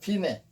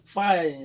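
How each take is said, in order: First: It is said as two syllables, 'fee-neh'. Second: It is said like the English word 'fine'. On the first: It marks where the music ends. The speaker calls it right. "음악적 용어에서는 피네라고 읽어야 맞는 겁니다" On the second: The reader wants to sound sophisticated. The speaker calls it wrong. "발음도 잘 굴려갖고 혀를 fine 이래가지고 읽는 사람인데 이건 fine이 아닙니다"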